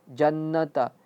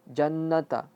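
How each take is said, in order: No difference in how they are said.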